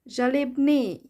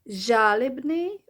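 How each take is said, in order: First: The stress falls on the E vowel. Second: The stress falls on the A vowel. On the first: "or the E" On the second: "stress is either on the A"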